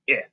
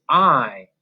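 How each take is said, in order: First: "I" said as a short ih; short vowel sound. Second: "I" said as its name, eye; long vowel sound. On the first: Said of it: "their short vowel sounds". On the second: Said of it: "the long vowel sound for the letter I". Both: Shown as a demonstration.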